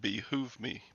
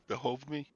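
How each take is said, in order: First: Behoove is said with the speaker's usual pronunciation. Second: Behoove is said with a British-style pronunciation.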